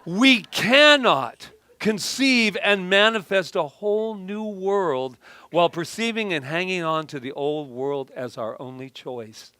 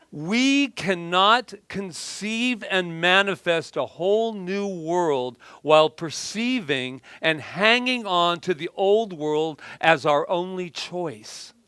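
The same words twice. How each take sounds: First: Louder, punchier start, fading at the end; emphatic second reading. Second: Slow, weighty reading of a quote; slow deliberate reading. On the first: Speaker rereading her quote to the audience, more emphatic. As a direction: read it again with more force up front. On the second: Speaker reading her quote to the audience, slow and deliberate. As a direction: lay out each word slowly for the room. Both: Shown as a demonstration. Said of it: "I'll read it again".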